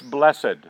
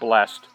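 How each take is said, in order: First: The ending is pronounced, giving two syllables. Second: The ending is silent, giving one syllable. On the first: The speaker calls it right. "You always like to pronounce the ED" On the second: The speaker calls it wrong. "It's not blessed"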